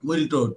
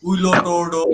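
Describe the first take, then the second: First: The name is said in two syllables. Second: The name is said in four syllables. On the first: The speaker calls it right. "এটা উচ্চারণ তো আমরা এখন করতে পারতেছি" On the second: The speaker calls it wrong. "উইলো টোর্ডো এরকম বলতাম"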